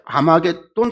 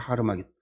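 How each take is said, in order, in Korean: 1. 이 단어는 그냥 'a' 소리로 시작해요. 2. 이 단어는 'har' 소리로 시작해요. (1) "잘못 읽은 거죠" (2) "하르마겟돈이에요"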